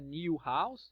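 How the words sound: New has a y sound before the vowel. "no britânico eles puxam o i"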